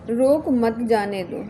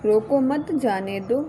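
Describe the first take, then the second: First: रोक stressed and drawn out, then मत जाने दो; slow, with a break right after रोक; pause after रोक. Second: Group रोको मत together, slowly, then जाने दो; pause after मत. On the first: Teacher shows how punctuation changes meaning, pause after रोक. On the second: Teacher shows how punctuation changes meaning, pause after मत. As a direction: stress on मत, then a break before जाने दो. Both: Shown as a demonstration. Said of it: "सही भाव स्पष्ट हो पाता है".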